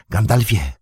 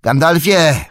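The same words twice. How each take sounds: First: Pippin calls across the courtyard, a first raised call. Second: Much higher and louder repeated call; shout. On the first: Pippin hails the wizard in the courtyard, a first call. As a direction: call his name to catch his attention. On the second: Pippin shouts to stop Gandalf riding off, full shout. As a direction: yell the name a second time, desperate to be heard. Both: Acted. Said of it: "krzyknął Pippin".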